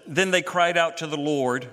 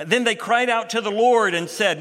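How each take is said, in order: First: Said in the usual way. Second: Higher and louder, leaning on Lord; emphatic reading. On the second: Real, not acted. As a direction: build it up toward the Lord. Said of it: "notice now they're not crying to a God".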